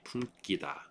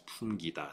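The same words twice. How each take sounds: First: The g after the m sounds tense. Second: The g after the m sounds plain. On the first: The speaker calls it wrong. "it's not going to be 품기다" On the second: The speaker calls it right. "It's 품기다"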